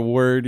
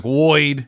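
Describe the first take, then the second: First: Said in the usual way. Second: "Woid" with an oy vowel replacing the er; Brooklyn pronunciation. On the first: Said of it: "instead of". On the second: Shown as a demonstration. Co-host showing vanishing accents, Brooklyn pronunciation of "Woid". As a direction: say "Woid" in old Brooklyn style. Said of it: "where you say things like".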